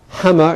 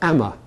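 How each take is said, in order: First: The word begins with a clear h sound. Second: The word begins without any h sound. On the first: This is the form the speaker has in mind. "might then have hammer in his mind" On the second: The speaker signals a local London identity. "to make the identity he'll say amma"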